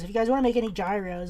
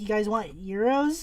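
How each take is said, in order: First: Quick quote with "gyros" as JYE-rohz; hard J on "gyros", like "jai-rose"; dad's pronunciation. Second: "euros" as YEE-rohz, slowly questioning; slow query stressing "euros" as YEE-rohz; corrective pronunciation. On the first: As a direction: imitate dad saying "gyros" as JYE-rohz. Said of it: "He was saying gyros". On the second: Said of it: "That's how my dad was saying it". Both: Retold or imitated.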